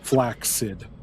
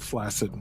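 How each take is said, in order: First: The double C is sounded as K-S. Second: The double C is sounded as S. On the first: "you typically would pronounce that first one" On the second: "we don't do that with flaccid"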